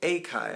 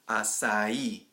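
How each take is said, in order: First: The middle consonant is not an s sound. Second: The middle consonant is an s sound. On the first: The speaker calls it wrong. "we see it and we say, oh, akai" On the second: The speaker calls it right. "the correct way is with a s sound... strong at the end"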